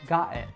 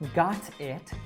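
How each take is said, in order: First: The T is a glottal stop. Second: The T is fully released. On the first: "a common feature of the Michigan accent is more common use of the glottal T" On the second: "instead of saying got it"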